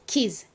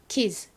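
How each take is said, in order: First: The ending merges into a single z sound. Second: The same.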